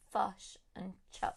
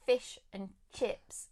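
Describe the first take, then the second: First: Kiwi 'fush and chops' with short uh vowels; New Zealand accent. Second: Said in the usual way. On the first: Shown as a demonstration. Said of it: "instead of fish and chips, it becomes". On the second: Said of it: "it becomes fush and chops".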